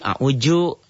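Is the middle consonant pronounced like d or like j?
j. The middle consonant sounds like a j. A Betawi speaker says it this way. "Kalau di Betawi a'uju"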